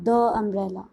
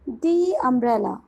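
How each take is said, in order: First: The word 'the' has a short 'uh' vowel. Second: The word 'the' has a long 'ee' vowel. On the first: The speaker calls it wrong. "It is not" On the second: The speaker calls it right. "It is"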